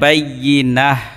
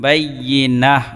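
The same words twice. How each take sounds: First: The word ends with a soft 'h' sound. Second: The word ends with a soft 'h' sound.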